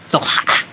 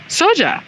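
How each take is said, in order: First: The middle consonant is a throaty h sound. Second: The middle consonant is an English j sound. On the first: The speaker calls it right. "it's pronounced soha... it's like from the throat" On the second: The speaker calls it wrong. "it's spelled S O J A. So I was like soja"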